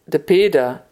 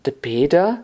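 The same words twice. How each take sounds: First: Said in the usual way. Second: "Peter" with a rising question tune; questioning echo. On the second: A narrator's reading. Old man querying the caller behind the door, rising "Peter".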